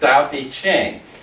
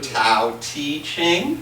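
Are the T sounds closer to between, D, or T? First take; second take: between; T. First: The first sounds fall between T and D. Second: The first sounds are said as a clear T. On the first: "aim for in between them" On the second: "pronounce it like a T"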